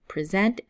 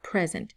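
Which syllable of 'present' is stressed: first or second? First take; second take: second; first. First: The stress is on the second syllable. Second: The stress is on the first syllable. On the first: The speaker calls it right. "we say present" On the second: The speaker calls it wrong. "not present"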